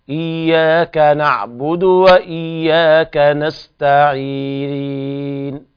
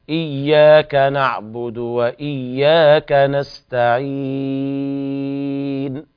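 The two takes are said the same way.

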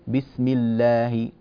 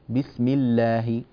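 Both takes have the same delivery.

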